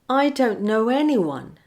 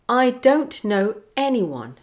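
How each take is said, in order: First: The words run together with a linking w. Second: The words are said separately, without a linking w. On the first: "linking w" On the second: "without linking"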